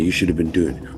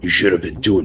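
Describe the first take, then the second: First: It is said in the speaker's ordinary voice. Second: It is said in a put-on imitation voice.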